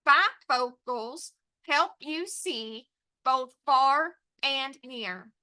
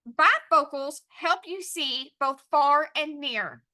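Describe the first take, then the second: First: "Bifocals help you see" in slow separate beats; pounded word by word. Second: Slow, clear reading in connected phrases; sentence dictation. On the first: Teacher dictating to students, pounded word by word. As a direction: pound out each word from "Bifocals" to "near", pausing between. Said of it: "Pound it with me". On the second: Teacher announcing the sentence, measured dictation. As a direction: read it out slowly for writing down. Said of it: "our sentence is going to be". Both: Shown as a demonstration.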